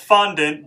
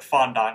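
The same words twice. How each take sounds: First: The last syllable sounds like 'int'. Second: The last syllable sounds like 'aunt'. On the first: This is the usual pronunciation of the word. The speaker calls it right. "It's fondant" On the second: This is the pronunciation picked up from a TV show. The speaker calls it wrong. "Buddy Velastro called it fondant"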